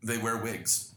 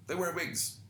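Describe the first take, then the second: First: Said in the usual way. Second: "They wear wigs" jumping much higher on "wear"; mock disbelief. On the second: Shown as a demonstration. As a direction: repeat it in a much higher incredulous tone.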